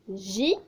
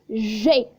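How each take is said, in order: First: The letter name ends in an 'ee' vowel. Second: The letter name ends in an 'ay' vowel. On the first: The speaker calls it wrong. "Il y a beaucoup de personnes qui confondent entre eux et qui disent pour ce G" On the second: The speaker calls it right. "Non, je dois dire G"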